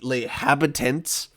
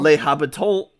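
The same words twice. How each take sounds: First: It is pronounced the English way. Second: It is pronounced the French way.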